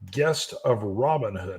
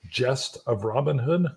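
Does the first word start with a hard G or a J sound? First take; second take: hard G; J sound. First: The first word starts with a hard G sound. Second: The first word starts with a J sound. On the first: The speaker calls it wrong. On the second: The speaker calls it right.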